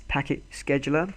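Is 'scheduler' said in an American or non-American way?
American. Scheduler is said the American way.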